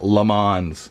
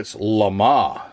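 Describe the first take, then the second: First: The name is said with an American pronunciation. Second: The name is said with a French pronunciation. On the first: "I'm American and that's how we pronounce it" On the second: "No, [name]"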